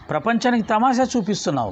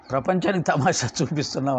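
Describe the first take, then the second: First: Mock rebuke with తమాషా stressed, voice a little raised; Baba's mocking rebuke. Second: Said in the usual way. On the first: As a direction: tease him for putting on a show. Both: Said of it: "భలే పదం వాడండి".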